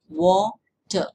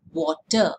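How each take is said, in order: First: "water" pulled apart into two beats, wa - ter; "water" in two separate, firm sounds; split into syllables. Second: Said in the usual way. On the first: Shown as a demonstration. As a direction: say "water" slowly, one syllable at a time. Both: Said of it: "you can hear there's two sound".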